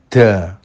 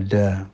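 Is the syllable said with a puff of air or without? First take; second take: with air; without air. First: The d is released with a puff of air. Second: The d is released with no puff of air. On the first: The speaker calls it wrong. "danya ada anginnya, da, salah ya" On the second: The speaker calls it right. "mestinya da"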